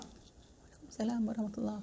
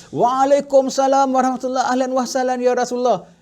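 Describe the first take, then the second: First: Near-inaudible, much softer answer; hushed reply meant not to be heard. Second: Louder, higher joyful welcome; a full-voiced, delighted welcome; loud reply. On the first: Acted. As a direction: murmur the greeting back so it won't carry. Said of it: "Pelan aja". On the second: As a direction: call the greeting back out for all to hear. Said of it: "baru kau jawab kuat".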